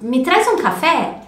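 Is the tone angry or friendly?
friendly. It is said in a gentle, friendly tone. The speaker is being polite. The speaker calls it right. "quando você fala assim"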